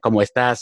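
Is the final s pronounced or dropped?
pronounced. The final s is clearly pronounced.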